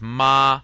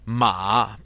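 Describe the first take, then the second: First: The syllable is said with a non-third tone. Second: The syllable is said with the third tone. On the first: "here the tone is totally different" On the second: "马 by itself is third tone and it means horse"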